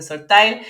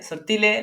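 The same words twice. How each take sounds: First: The name is pronounced with English sounds. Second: The name is pronounced with Spanish sounds. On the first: This is how English speakers say it. "la gente que habla inglés le dice sortile" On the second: This is how Spanish speakers say it. "la gente que es más hispanohablante le dice sortile"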